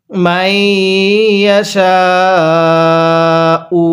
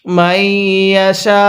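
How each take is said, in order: First: মাইয়াশাউ stretched very slowly; long drawn recitation. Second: মাইয়াশা ends cut off, no final vowel; pausal form. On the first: Teacher models the long madd for students. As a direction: draw out the final vowel. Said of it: "আমার সাথে পড়ুন". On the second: Teacher shows the stop at the verse end. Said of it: "ওয়াকফ করি তাহলে". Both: Shown as a demonstration.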